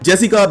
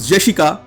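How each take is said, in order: First: It is said with English sounds. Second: It is said with Japanese sounds.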